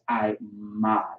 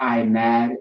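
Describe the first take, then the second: First: The second syllable sounds like 'mod'. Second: The second syllable sounds like 'mad'. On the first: The speaker calls it right. "it's I mod" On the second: The speaker calls it wrong. "It's not I mad"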